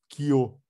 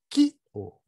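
First: The stress is on the second syllable. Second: The stress is on the first syllable. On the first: The speaker calls it wrong. "Você não fala ki-o" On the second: The speaker calls it right. "você fala ki-o. O acento está no ki"

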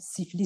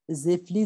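First: The word is said in standard French pronunciation. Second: The word is distorted, starting with a z sound. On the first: This is the word the character means. The speaker calls it right. "pour dire par exemple siffler" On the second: This is how a particular character mispronounces it. The speaker calls it wrong. "C'est une prononciation un peu défectueuse de ce personnage"

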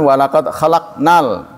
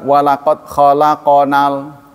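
First: The q closes the syllable with no vowel. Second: A short vowel follows the q sound. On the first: We created man. The speaker calls it right. "qaf yang disukun artinya kami menciptakan" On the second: Man created us. The speaker calls it wrong. "terdengarnya qafnya fathah, bukan sukun"

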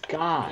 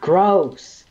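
First: The name has no r sound after g. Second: The name has an r sound after g. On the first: The speaker calls it right. "It's Goss" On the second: The speaker calls it wrong. "it's not Gross"

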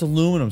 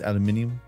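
First: The word is said with four syllables. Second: The word is said with five syllables. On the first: "It's aluminum, say it right" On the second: "I am saying it right"

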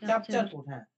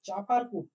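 First: The name is said with the middle 'ch' sound. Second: The name is said without the middle 'ch' sound. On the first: The speaker calls it right. "চাপচারকুট হবে" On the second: The speaker calls it wrong. "চাপার হবে না"

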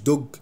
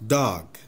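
First: The vowel is closed and rounded, like oh. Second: The vowel is open, like ah. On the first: The speaker calls it wrong. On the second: The speaker calls it right.

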